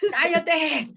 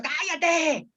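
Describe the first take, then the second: First: ¡Cállate! snapped in a high, desperate shout. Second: ¡cállate! flung high and exasperated; desperate shout. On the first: (¡Cállate! gritado con desesperación) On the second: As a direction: shout ¡cállate! high, at the end of your rope. (¡cállate! con desesperación, agudo) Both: Shown as a demonstration. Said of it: "Así con desesper".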